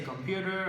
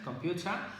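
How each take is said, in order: First: It is said in an American accent. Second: It is said in a British accent. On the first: "for the American accent" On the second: "using the British accent"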